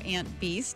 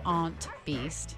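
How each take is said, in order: First: Aunt is said in a general, non-regional accent. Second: Aunt is said in a New England accent.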